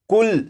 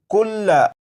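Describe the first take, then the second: First: The word ends on the consonant with no vowel. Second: The word ends with a short vowel after the consonant. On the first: The reader stops at this word. "ज़बर को नहीं पढ़ेंगे और ये लफ्ज़ पढ़ा जाएगा" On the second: The word is read as written, without stopping. "ये लफ्ज़ लिखा है कुल्ला"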